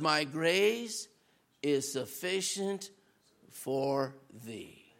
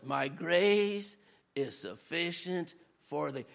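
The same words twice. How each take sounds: First: Low, soft and slow, hushed; low, hushed voice of God's reassurance; gentle divine reply. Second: Low, soft, hushed answer; whisper-close reassurance from above; low, hushed voice of God's reassurance; gentle divine reply. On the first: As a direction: speak it like a quiet promise from God. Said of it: "God's answer to his three prayers". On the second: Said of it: "in the perils in the wilderness". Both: Retold or imitated.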